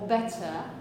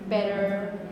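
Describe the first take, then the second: First: The middle T is a crisp t sound. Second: The middle T is a quick flap. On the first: "a British standard speaker would say something like matter or better" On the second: "they would say things like mother, better, Betty, university. So a kind of R"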